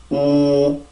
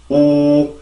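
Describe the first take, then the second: First: The sound is hollow, with rich mouth resonance. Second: The same.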